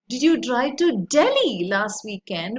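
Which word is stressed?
Delhi. The stress is on "Delhi".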